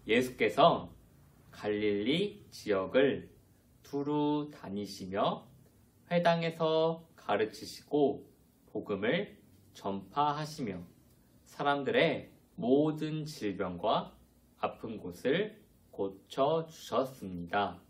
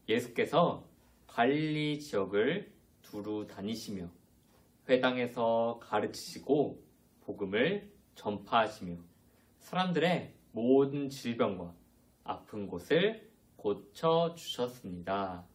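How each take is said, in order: First: It is read slowly. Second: It is read quickly.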